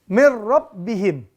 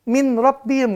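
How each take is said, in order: First: The n merges smoothly into a normal r. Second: The n is clearly pronounced before r. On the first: The speaker calls it right. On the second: The speaker calls it wrong.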